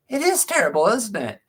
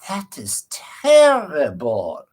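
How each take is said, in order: First: Much higher voice, reenacting an agreeing reply; high-pitched retold reply. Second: Imitating an old-fashioned doctor's Eastern European accent, very slow. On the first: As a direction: agree in a high voice, as if replaying the moment. Own reply to the doctor, acted. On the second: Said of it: "kind of Eastern European accent".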